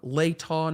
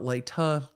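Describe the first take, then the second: First: It is said the way locals pronounce it. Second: It is said the way outsiders pronounce it. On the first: The speaker calls it right. "how they pronounce" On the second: The speaker calls it wrong. "not Latah"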